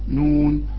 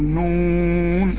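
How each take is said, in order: First: The vowel is short, not drawn out. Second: The vowel is drawn out for a long time. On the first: The speaker calls it wrong. "من الخطأ انك تقول بسم الله الرحمن الرحيم نون لا ما ينفعش" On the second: The speaker calls it right. "بنمد بنقول نون، أهو ده المد"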